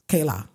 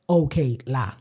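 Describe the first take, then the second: First: The words are shortened and run together. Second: Both words are said fully and kept apart. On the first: The speaker calls it right. "It's kela" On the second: The speaker calls it wrong. "the way to say it is not okay, la"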